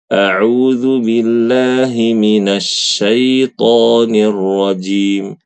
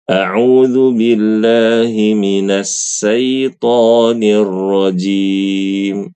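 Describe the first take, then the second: First: The final consonant of minas is an sh sound. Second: The final consonant of minas is a plain s. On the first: The speaker calls it right. "Tetapi huruf shin" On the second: The speaker calls it wrong. "Ini kan salah, bukan minas syaiton"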